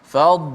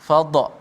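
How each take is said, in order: First: The final consonant stops cleanly without an echo. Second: The final consonant is released with a bouncing echo. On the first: The speaker calls it right. "Fad tebal tapi tanpa qalqalah" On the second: The speaker calls it wrong. "ramai yang baca bila dad mati ni baca dengan qalqalah"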